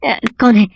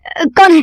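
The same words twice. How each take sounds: First: Higher, startled asking who's there; nervous who's-there; frightened question. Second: Terrified who's-there; panicked cry. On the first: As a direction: jump at an unseen hand. Invisible attacker slaps him. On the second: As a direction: scream it as the blows keep coming. Slaps continue, panic grows. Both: Acted.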